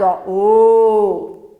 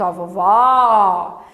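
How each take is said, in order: First: "o" said as a tight closed ô, louder; teacher shows the closed "o" sound. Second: Slowly spelled-out open "ó" for a class; open o sound. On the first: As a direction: round and close the lips on "o". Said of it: "ele é mais fechado". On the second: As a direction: pull the open "ó" out long in "vovó". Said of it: "ele é mais aberto". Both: Shown as a demonstration.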